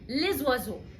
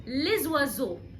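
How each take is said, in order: First: The s is pronounced and linked to the next word. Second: The s is pronounced and linked to the next word.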